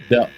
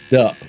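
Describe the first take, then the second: First: The syllable ends with a p sound. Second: The same.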